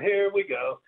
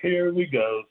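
First: It is said at a higher pitch. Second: It is said in a normal voice. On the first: "then you'd do it higher" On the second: "you would do the normal like that"

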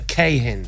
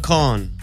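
First: The surname is said with two syllables. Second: The surname is said with one syllable. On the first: The speaker calls it wrong. "It's neither, actually" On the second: The speaker calls it right. "The second A is silent"

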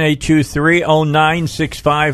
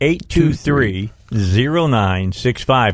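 First: The number is said at normal speed. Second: The number is said slowly.

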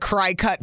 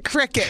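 First: The first syllable sounds like cry. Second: The first syllable sounds like crick. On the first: The speaker calls it wrong. "I had been calling it a cry cut" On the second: The speaker calls it right. "called a cricket"

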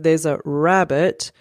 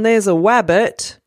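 First: The word starts with an R sound. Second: The word starts with a W sound. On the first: The speaker calls it right. "instead of" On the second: The speaker calls it wrong. "a 3-year-old who can't say their R sound"

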